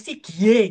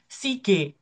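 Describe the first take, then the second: First: The second syllable is said with a 'gye' glide. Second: The second syllable is said as plain 'ge'. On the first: The speaker calls it wrong. "Bacanya nggak boleh si G gitu nggak boleh" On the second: The speaker calls it right. "Bacanya apa?"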